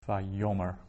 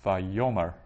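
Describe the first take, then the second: First: The stress is on the middle syllable. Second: The same.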